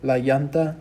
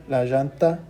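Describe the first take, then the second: First: "llanta" said as "YAHN-tah"; Y-sound double L. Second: "llanta" said as "ZHAHN-tah"; J-sound double L. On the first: Teacher contrasting both options for learners, "llanta" with Y. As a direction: open "llanta" with an English y. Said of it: "you could use a y sound". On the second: Teacher contrasting both options for learners, "llanta" with J. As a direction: open "llanta" with a j or zh. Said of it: "or a j sound". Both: Shown as a demonstration.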